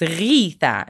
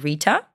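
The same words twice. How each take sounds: First: The name starts with an Arabic guttural gh sound. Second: The name starts with an English-style R. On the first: "It's G-H because it's an Arabic sound" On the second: "like kind of in English"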